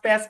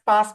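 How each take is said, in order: First: It has an American flat 'a' vowel. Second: It has a British broad 'ah' vowel. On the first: "এ দিয়ে উচ্চারণ করেন" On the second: "আ দিয়ে উচ্চারণ করেন"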